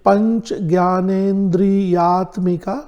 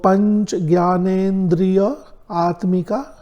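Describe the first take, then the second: First: The compound is said as one joined word. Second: The compound is split before atmika.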